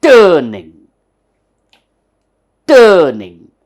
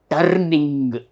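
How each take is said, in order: First: TURNING as loud, falling TUH-nin(g), R silent; "turning" without R, first syllable very loud; correct pronunciation. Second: TURNING with a rolled-out R and hard final G; over-clear "turning", R and G both pronounced; meticulous spelling pronunciation. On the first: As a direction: punch a long "tuh" in "turning", no R, no hard G. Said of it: "there is no R and there is no G". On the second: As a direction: sound every R and G in "turning": turrr-ning-g. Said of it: "we pronounce this R and we pronounce this G". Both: Shown as a demonstration.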